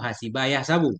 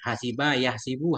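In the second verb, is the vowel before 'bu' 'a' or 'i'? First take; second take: a; i. First: The second verb has an 'a' vowel before 'bu'. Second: The second verb has an 'i' vowel before 'bu'. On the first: "fathah juga satu lughat"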